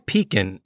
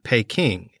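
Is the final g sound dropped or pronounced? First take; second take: dropped; pronounced. First: The word ends without a final g sound. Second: The word ends with a final g sound.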